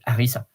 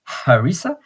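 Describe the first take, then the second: First: The word begins without any H sound. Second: The word begins with an audible H sound. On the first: "in French, you say harissa because you don't pronounce the H" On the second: "in English, you might say"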